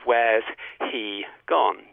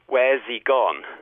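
First: The h in 'he' is pronounced. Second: The h in 'he' is dropped. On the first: "Instead of where's he gone?" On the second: "unstressed, in fast speech, you might well say"

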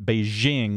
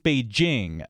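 First: The J sounds like the s in measure. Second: The J sounds like the j in jam. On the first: The speaker calls it wrong. "which was what a lot of people say" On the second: The speaker calls it right. "with more of a J sound"

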